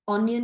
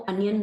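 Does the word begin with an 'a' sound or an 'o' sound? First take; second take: o sound; a sound. First: The first vowel sounds like 'o' in 'on'. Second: The first vowel sounds like 'a' in 'about'. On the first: The speaker calls it right. "ऑनियन ही बोलते हैं" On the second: The speaker calls it wrong. "ऑनियन को अनियन नहीं बोलते हैं"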